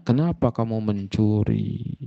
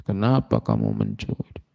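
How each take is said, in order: First: Said in the usual way. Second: Much lower and quieter "Kenapa kamu mencuri?"; gentle asking. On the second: Retold or imitated. Sheikh bin Baz gently asks the caught thief "Kenapa kamu mencuri?", low and soft. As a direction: drop the voice low and ask "Kenapa kamu mencuri?" softly, without blame.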